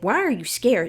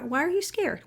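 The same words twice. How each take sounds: First: The tone sounds sharp and demanding. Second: The tone sounds soft and gently curious. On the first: The feelings are being confronted or judged. The speaker calls it wrong. "You don't say" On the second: The feelings are welcomed with care. The speaker calls it right. "It's more like"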